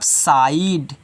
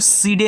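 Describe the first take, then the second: First: The vowel sounds like 'eye', in one syllable. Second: The vowel sounds like 'ee', with two syllables. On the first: The speaker calls it right. "इसको पढ़ोगे आप साइड" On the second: The speaker calls it wrong. "इसको सीडे नहीं पढ़ोगे बच्चों"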